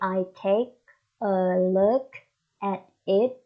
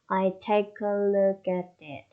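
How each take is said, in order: First: Each word is said separately. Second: The words run together smoothly. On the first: The speaker calls it wrong. "We don't say" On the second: The speaker calls it right. "connected speech"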